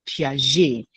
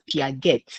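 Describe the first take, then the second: First: The name is said with a French pronunciation. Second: The name is read as its English spelling suggests. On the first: The speaker calls it right. "it is a French name, so it is pronounced Piaget" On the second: The speaker calls it wrong. "Most students will pronounce it as Piaget because it is spelled P I A G E T"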